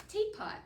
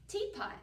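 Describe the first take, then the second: Both takes have the same delivery.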